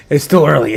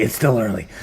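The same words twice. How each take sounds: First: Said in the usual way. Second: Murmured lower repeat; soft lower echo. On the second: Shown as a demonstration. Streamer tells crypto fans it's early, then echoes it softly. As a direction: say it again lower and softer, almost to yourself.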